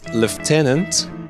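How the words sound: It is said with a British pronunciation. "In British English, I think it's lieutenant"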